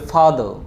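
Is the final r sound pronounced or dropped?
dropped. The final r sound is dropped. "ব্রিটিশরা বলে যে ফাদার"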